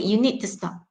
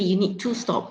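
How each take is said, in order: First: The word 'to' is reduced to a weak vowel. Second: The word 'to' has a full long vowel. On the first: The speaker calls it right. "you use the" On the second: The speaker calls it wrong. "you don't say"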